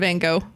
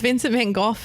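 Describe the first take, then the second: First: The name has the usual American pronunciation. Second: The name has a non-American pronunciation. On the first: The speaker calls it wrong. "why do we keep saying Van Gogh in America?" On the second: The speaker calls it right. "it's Vincent van Gogh instead of"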